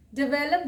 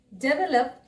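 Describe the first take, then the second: First: "डेवलप" as di-VEL-up; short di, then stressed vel in "डेवलप"; correct pronunciation. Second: "डेवलप" as DE-vuh-lup; full de at the start of "डेवलप"; wrong pronunciation. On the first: Teacher giving learners the right "डेवलप", said di-VEL-up. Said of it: "डेवलप बोलिए". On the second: Teacher warning learners off "डेवलप", said DE-vuh-lup. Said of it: "डेवलप मत बोलिए". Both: Shown as a demonstration.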